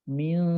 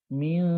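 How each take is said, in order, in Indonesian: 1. Bunyi n dibaca samar dan didengungkan. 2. Bunyi n dibaca samar dan didengungkan.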